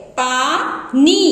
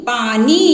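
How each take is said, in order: First: Teacher drawing पानी out slowly; slowly drawn out. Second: Said in the usual way. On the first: Shown as a demonstration. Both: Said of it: "इसी तरह से".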